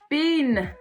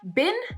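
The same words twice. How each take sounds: First: The vowel is drawn out long. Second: The vowel is short. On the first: The speaker calls it wrong. "you French speakers elongate the vowel" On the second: The speaker calls it right. "when we have a word in English with a short vowel"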